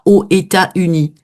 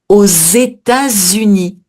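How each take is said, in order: First: États and Unis are said without a linking z. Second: A z sound links États to Unis. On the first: The speaker calls it wrong. "On dit pas aux États-Unis" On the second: The speaker calls it right. "Je suis obligée de faire la liaison"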